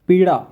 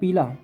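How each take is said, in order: First: The middle consonant is a flapped r-like sound. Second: The middle consonant is a plain l sound. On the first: "इसका उच्चारण रणा की तरह होता है" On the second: "पीला होता है ना"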